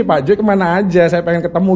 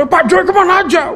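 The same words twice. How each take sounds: First: Said in the usual way. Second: "Pak Joy kemana aja?" pitched high, the fall landing hard on "kemana"; moody questioning tune. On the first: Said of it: "Kalau gua bacanya gini". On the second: Shown as a demonstration. Preacher shows how his wife read the message, high accusing tune. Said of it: "Lu baca".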